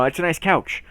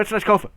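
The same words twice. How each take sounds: First: Said in the usual way. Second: "sofa" blurred with couch into "kofa", higher and louder; blended-word slip. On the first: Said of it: "if I wanted to say". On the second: Shown as a demonstration. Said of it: "I would just switch the word".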